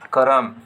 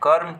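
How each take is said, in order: First: A full vowel separates the r and m. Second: The r joins directly onto the m. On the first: This is the Nagpuri form. "Nagpuri में ... पूरा र कर उच्चारण होवेला" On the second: This is the Hindi form. "Hindi में"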